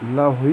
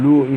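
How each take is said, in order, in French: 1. La première syllabe a une glissade 'ao'. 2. La première syllabe a une voyelle 'oo' simple. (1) "moi je le prononce comme ça" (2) "Certains disent Louhi"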